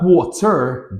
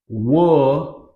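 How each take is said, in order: First: The T is a crisp, fully released stop. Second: The T is a quick flap, like D. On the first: The speaker calls it wrong. "so it's not water" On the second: The speaker calls it right. "but it's more like a water"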